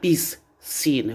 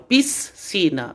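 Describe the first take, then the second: First: The s and c are sounded separately. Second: The s and c merge into one sound. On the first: The speaker calls it wrong. "eu não vou falar piscina" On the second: The speaker calls it right. "eu falo piscina, é o mesmo som"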